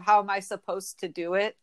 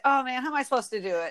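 First: "supposed to" as separate words; measured, full "supposed to"; careful "supposed to". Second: Fast, slurred "supposed to"; quick colloquial "supposed to"; casual "supposta". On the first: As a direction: sound each word of "supposed to". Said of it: "Instead of". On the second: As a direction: rush "supposed to" into one word. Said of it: "And I would say". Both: Shown as a demonstration.

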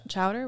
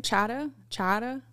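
First: Said in the usual way. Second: "Chowder" as "chah-duh" in a Maine accent; attempted Maine accent. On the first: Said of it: "when somebody says clam ch-, chowder". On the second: Shown as a demonstration. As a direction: try Maine "Chowder", dropping the r, questioning. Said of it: "see if you can do".

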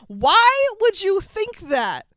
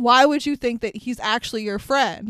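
First: High, drawn-out cry of disbelief; retold mock scream. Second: Said in the usual way. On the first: Viewer yells at the movie, mild mock scream. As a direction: stretch it high, a scream held in check. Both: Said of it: "while watching this movie, screamed".

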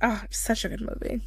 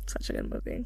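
First: Said in the usual way. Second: Whispered on the breath, dreamy; breathy whisper. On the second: Real, not acted. Dreamy repeat after praising the film.

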